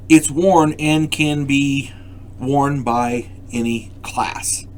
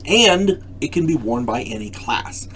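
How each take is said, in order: First: Slow and deliberate on worn and can be worn by any class; stretched, teacherly emphasis. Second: Said in the usual way. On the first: Shown as a demonstration. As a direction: spell it out slowly so it sinks in. Repeats key point, slowly stressed.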